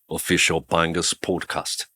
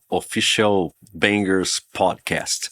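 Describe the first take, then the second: First: It is said with a British accent. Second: It is said with a Brazilian Portuguese accent.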